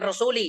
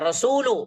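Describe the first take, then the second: First: The word ends with an 'i' vowel. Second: The word ends with a 'u' vowel. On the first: The speaker calls it wrong. "bukan rasuli" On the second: The speaker calls it right. "Iya, rasulu"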